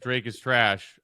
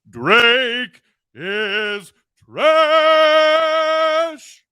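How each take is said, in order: First: It is said in a plain, calm voice. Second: It is said loud and forceful, theatrically projected.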